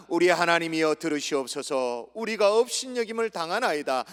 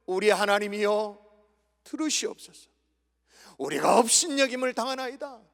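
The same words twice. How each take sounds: First: Steady congregational reading; scripture reading. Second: Pleading prayer. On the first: Shown as a demonstration. Preacher leads the congregation in reading verse four, measured recitation. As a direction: read the verse out at a measured pace. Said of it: "사 절 읽습니다". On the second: Acted. Preacher prays as Nehemiah to God, pleading prayer. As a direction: pray the verse as an appeal. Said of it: "기도하고 있는 거예요".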